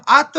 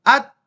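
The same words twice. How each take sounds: First: अत with an extra short vowel after the त; wrongly added echo. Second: अत halted on the त with no echo; clean stop. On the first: Teacher showing students what to avoid, false echo on अत. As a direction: bounce the त of अत into "ato". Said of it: "नहीं पढ़ेंगे". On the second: Teacher contrasting it with the echoed letter, clean stop on अत. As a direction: end अत dead on the consonant. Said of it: "रुक गई कहानी". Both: Shown as a demonstration.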